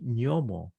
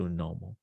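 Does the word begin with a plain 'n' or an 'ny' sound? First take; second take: ny; plain n. First: The word begins with an 'ny' sound. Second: The word begins with a plain 'n' sound. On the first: This is the form common in certain Latin American regions. "certain regions in Latin America are just very common to say Nyomo" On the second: This is the form the speaker had always heard. "as opposed to Nomo"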